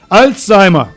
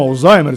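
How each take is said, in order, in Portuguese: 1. É pronunciado do jeito alemão. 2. É pronunciado do jeito português.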